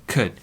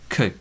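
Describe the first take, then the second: The two takes are said the same way.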